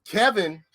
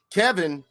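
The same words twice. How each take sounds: The two takes are said the same way.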